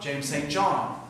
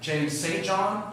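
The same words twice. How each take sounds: First: The stress falls on the last word, John. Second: The stress falls on the middle word, Saint. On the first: "sometimes on the end" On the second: "sometimes I pronounce it with the emphasis on the middle"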